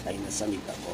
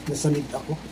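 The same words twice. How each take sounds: First: Said in the usual way. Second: Coughing after a drink went down wrong; choking on a drink. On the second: Real, not acted. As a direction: sputter it out while choking on coffee.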